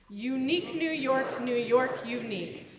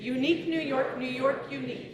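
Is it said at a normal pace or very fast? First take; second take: normal; very fast. First: It is said at a normal pace. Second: It is said as fast as possible.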